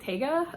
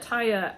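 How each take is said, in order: First: The name has a hard g in the middle. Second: The name has a y sound in the middle. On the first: This is how the name was misread privately. The speaker calls it wrong. "I'd always been saying it in my head like Tega" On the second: This is how the name is actually pronounced. The speaker calls it right. "but Taya actually would make a lot more sense"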